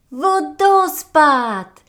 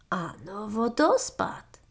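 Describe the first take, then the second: First: A long, high, loud cry of joy; shrieking marmot. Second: Calm agreement. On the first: Marmot shrieks at finding the waterfall, overjoyed. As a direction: shout it out at the first sight. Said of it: "wrzasnęła marmotka". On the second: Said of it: "przytaknął Vincent". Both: A narrator's reading.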